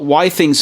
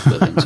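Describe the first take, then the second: First: The name begins with the sound 'why'. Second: The name begins with the sound 'with'. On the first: The speaker calls it right. "Why Things is the correct pronunciation" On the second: The speaker calls it wrong. "I always called it Withings. I was wrong"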